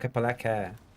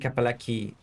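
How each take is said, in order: First: The final vowel is said like 'eh'. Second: The final vowel is said like 'ee'. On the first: The speaker calls it right. "they pronounce the letters uh, in uh, in a Latin way" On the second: The speaker calls it wrong. "it wouldn't be Kapalaki"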